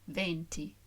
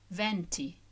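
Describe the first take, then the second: First: The E is said with a closed vowel. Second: The E is said with an open vowel. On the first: It means the number twenty. "with a closed E" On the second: It means the winds. "with an open E, which I hope I'm approximating"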